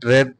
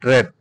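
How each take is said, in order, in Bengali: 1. স্বরধ্বনিটি হ্রস্ব, 'red' শব্দের মতো। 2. স্বরধ্বনিটি হ্রস্ব, 'red' শব্দের মতো।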